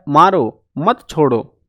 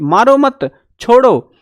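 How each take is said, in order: First: There is a pause after maaro. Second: There is a pause after mat.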